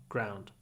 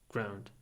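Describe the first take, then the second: The two takes are said the same way.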